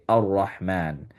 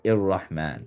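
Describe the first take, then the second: First: The word begins with an a vowel. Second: The word begins with an i vowel. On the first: The speaker calls it right. "this is why we say ar-Rahman" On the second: The speaker calls it wrong. "or ir-Rahman"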